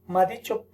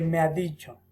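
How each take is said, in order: First: Me ha is shortened to a single syllable ma. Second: Me ha is said fully as two syllables. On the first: The speaker calls it wrong. "En vez de decir me, dice ma" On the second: The speaker calls it right.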